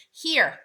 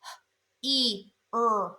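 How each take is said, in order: First: Said in the usual way. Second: "h, e, er" as separate phonics sounds with gaps; sounded out. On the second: Shown as a demonstration. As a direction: break here into its sounds: "h, e, er". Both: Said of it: "Er is the last sound".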